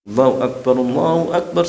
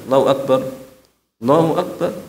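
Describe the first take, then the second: First: Both phrases are said in one breath. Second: The two phrases are separated by a pause.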